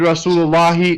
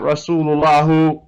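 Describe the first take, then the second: First: The word ends with an 'ee' vowel. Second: The word ends with an 'oo' vowel. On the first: The speaker calls it right. "we want to read Rasulullahi" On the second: The speaker calls it wrong. "not Rasulullahu"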